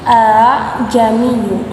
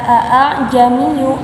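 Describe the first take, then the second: First: The second glottal stop is softened and eased. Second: The second glottal stop is sounded fully and clearly. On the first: The speaker calls it right. "tetapi a'ajamiyu karena di dalamnya terdapat hukum tashil" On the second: The speaker calls it wrong. "tidak dibaca a'ajamiyu"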